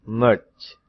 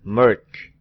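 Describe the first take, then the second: First: The consonant is made with a relaxed tongue. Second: The consonant is thick, tongue pressed flat upward. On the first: The speaker calls it wrong. "dengan salah" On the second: The speaker calls it right. "Yang benar"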